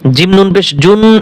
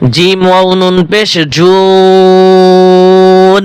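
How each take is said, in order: First: The vowel before the n is short. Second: The vowel before the n is long. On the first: The speaker calls it wrong. "এভাবে বললে হবে না" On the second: The speaker calls it right. "চার আলিফ টান দিয়ে নুনকে ধরতে হবে"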